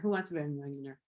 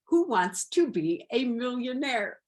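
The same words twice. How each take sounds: First: The words are slurred and run together. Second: Each word is clearly and carefully enunciated. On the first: The speaker calls it wrong. "sounded like I was drunk" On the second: The speaker calls it right. "I enunciated"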